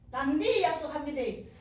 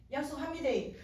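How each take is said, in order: First: Louder, emphatic Gyeongsang dialect promise. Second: Plain promise with a Gyeongsang dialect lilt. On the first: Woman sealing her promise to the Lord, Gyeongsang dialect. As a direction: hit 단디 hard in Gyeongsang dialect. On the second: Woman promising the Lord, Gyeongsang dialect. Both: Retold or imitated. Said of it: "막 경상도 말로 막 말했습니다".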